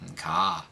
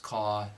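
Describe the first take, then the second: First: The R is dropped and pitch rises. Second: The final R is sounded. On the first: "otherwise you'll sound like you're from Boston" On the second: "words that end with the letter R, such as car"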